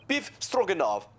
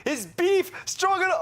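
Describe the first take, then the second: First: Said in the usual way. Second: Delighted disbelief. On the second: Acted. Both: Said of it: "Oh, he's be".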